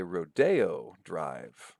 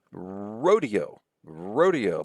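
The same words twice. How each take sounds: First: Rodeo as roh-DAY-oh, slowly; stress on second syllable. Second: Rodeo as ROH-dee-oh; stress on first syllable. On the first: Lecturer shows how some people say it, rodeo as roh-DAY-oh. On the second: Lecturer shows the usual word, Rodeo said ROH-dee-oh. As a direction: punch the RO of Rodeo. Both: Shown as a demonstration. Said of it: "Let's see the stress shifts there".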